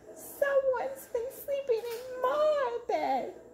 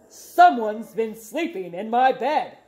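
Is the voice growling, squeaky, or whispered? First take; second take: squeaky; growling. First: It is said in a high squeaky voice. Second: It is said in a deep growling voice.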